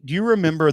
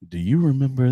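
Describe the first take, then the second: First: It is said in an ordinary speaking voice. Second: It is said in a low, sultry, sexy voice.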